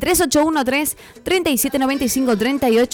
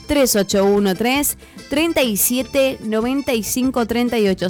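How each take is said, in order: First: The number is said fast. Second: The number is said slowly.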